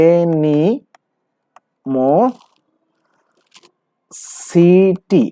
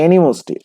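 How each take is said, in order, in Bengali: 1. প্রতিটি syllable, 'si' সহ, পুরোপুরি উচ্চারণ করা হয়। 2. 'si' সিলেবলটি চেপে ছোট করে ফেলা হয়। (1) "আপনি এটা হচ্ছে এইভাবে লিখবেন" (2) "কিন্তু এটা এনিমোসটি।"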